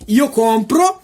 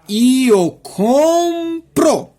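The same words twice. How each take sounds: First: The phrase is said quickly. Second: The phrase is said slowly. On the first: "Eu vou repetir para você uma vez rápido" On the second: "Agora eu vou falar devagarzinho para você"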